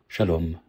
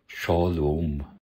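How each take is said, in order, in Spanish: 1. Se dice con pronunciación de hebreo moderno. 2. Se dice con pronunciación de hebreo antiguo. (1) "Hebreo moderno" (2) "hebreo antiguo"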